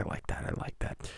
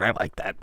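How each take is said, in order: First: Trailing off into a whisper; whispered praise after the caller hangs up. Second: Said in the usual way. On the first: Real, not acted. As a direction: breathe it out softly as the praise fades. Praise fading away to a whisper.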